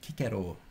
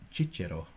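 First: It uses a classical Latin pronunciation. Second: It uses an Italian pronunciation. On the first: "to give the classical pronunciation" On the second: "I'm sure the Italians among you"

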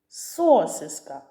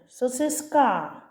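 First: The stress is on the first syllable. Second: The stress is on the last syllable. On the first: "Звук О. Спробуй стати головним" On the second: "Може тоді останній звук А буде головним"

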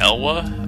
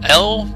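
First: The name is said as two syllables. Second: The name is said as a single syllable. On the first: "I guess some people would say Elwa" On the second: "That's how I pronounce it"

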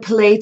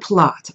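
First: The vowel sounds like the one in 'plate'. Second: The vowel sounds like the one in 'plot'. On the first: "it's either plate or plot. Both are correct" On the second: "it's either plate or plot. Both are correct"

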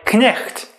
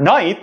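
First: The initial k is pronounced, with a throaty ch. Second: The initial k is silent, like modern English. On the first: This is the pronunciation from 500 years ago. "the way we did 500 years ago" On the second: This is the present-day pronunciation. "the way that we do now"

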